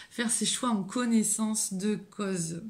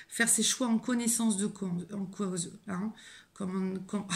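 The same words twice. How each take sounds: First: Said in the usual way. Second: Tripping over the words; stammered false start, losing the phrase; stumbling. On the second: Real, not acted. (en bafouillant) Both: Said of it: "je bégaye".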